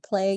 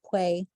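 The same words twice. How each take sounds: First: The word has a clear l sound. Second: The l sound becomes a w-like glide. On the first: "Instead of saying play" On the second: "gliding of liquids"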